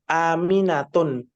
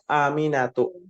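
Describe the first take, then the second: First: The name ends with an n sound. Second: The name ends on a bare vowel. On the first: The speaker calls it wrong. "kenapa nggak boleh Aminatun?" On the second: The speaker calls it right. "Aminatu Ustaz"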